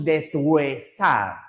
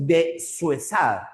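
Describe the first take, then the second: First: Deshuesar slowly as des-GÜE-sar; correct syllable split. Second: Deshuesar as de, then suesar; wrong syllable split. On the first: Teacher showing how we say it, spaced des-hue-sar. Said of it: "Decimos deshuesar". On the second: Teacher showing how we don't pronounce it, de-suesar. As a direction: start the second syllable of deshuesar with S. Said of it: "No pronunciamos deshuesar". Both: Shown as a demonstration.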